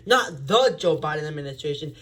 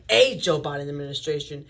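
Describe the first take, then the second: First: The word the punched, contrasting; stress on the. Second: A said as ay, punched; stress on A. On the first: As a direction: hit the word the hard. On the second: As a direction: lean on A, say it ay. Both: Shown as a demonstration.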